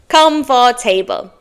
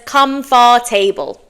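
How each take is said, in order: First: Every written syllable is sounded out fully. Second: The same.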